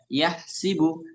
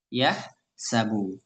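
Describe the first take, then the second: First: The middle syllable has the vowel 'i'. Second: The middle syllable has the vowel 'a'. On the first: This is the Hudhayl and Qays tribes' reading. "dari suku-suku Huzail dan juga Qais, yakni dibaca yahsibu" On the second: This is the Quraysh tribe's reading. "suku Quraisy ya membaca dengan yahsabu"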